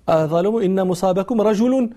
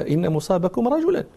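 First: رجل said "rajulun", ending in -un; nominative ending. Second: رجلا said "rajulan", ending in -an; accusative ending. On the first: Audience member correcting the verse, رجل ending in -un. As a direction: finish رجل on a clear -un. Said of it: "الصواب أن يقال". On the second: Scholar upholding the girl's reading, رجلا ending in -an. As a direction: finish رجلا on -an. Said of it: "الصواب هو ما قالته الجارية". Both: Retold or imitated.

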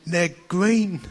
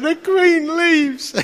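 First: Said in the usual way. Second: Drawn out high and slow; awestruck wonder. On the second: Retold or imitated. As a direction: marvel at it slowly. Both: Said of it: "I'm going like".

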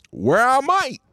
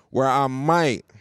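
First: High, sung-out throwback line; old intro callback. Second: Said in the usual way. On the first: Shown as a demonstration. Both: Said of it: "that's throwback right there".

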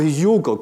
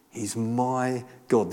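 First: "your" leaned on, setting the other person apart; stress on YOUR. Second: "my" drawn out slowly and claimed personally; stress on MY. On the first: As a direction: hit the word "your" to hand it over. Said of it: "It's really personal". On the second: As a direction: lean long on the word "my". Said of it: "it's now personal to him". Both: Retold or imitated.

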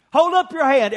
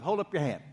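First: Raised, higher call for hands up; loud call to the congregation. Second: Softer, lower repeat of the request; quiet repeat. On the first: Pastor calls every campus to raise hands, loudly. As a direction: call out to the whole room. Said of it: "every campus now". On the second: Pastor repeats the request to the congregation, softly. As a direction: say it again gently, almost to yourself. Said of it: "almost everybody in N R H is holding up their hand". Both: Real, not acted.

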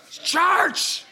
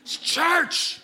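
First: "It's church" higher, with "church" drawn out as "charch"; solemn churchy voice. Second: Said in the usual way. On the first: Shown as a demonstration. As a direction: intone "It's church" like a stern old deacon. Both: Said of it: "You gotta say it like that".

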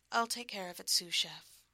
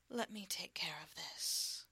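First: Louder, brighter-voiced promise; promising. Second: Gentle whisper. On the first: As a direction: say it with playful confidence. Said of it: "I promised". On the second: Acted. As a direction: whisper it tenderly. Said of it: "Very gently now".

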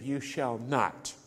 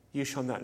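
First: "You shall not." said slowly and quietly, each word weighed; slow solemn commandment. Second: Said in the usual way. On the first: Shown as a demonstration. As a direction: intone the commandment slowly, like scripture. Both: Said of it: "are expressed in the negative".

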